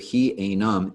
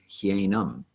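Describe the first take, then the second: First: The two words are said separately. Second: The two words run together into one. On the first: The speaker calls it wrong. "instead of he enum" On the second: The speaker calls it right. "it'll be hienum"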